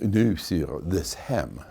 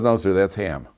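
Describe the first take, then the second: First: It is said in a French accent. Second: It is said in a plain, ordinary accent.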